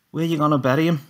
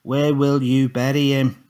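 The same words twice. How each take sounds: First: High shouted call down the landing; shouting after Tommy down the landing. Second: Slow, deliberate, loud and clear; repeating the question slowly for Tommy; more clearly. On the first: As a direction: call after him loudly. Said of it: "I shouted". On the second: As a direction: spell it out word by word. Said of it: "more clearly". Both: A narrator's reading.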